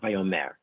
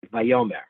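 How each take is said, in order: First: Vayomer stressed on the last syllable; wrong final stress. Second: Vayomer with the middle syllable punched; stress on penultimate syllable. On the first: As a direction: say Vayomer as va-yo-MER. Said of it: "It's not Vayomer". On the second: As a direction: say Vayomer as va-YO-mer. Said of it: "stress on the penultimate". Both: Shown as a demonstration.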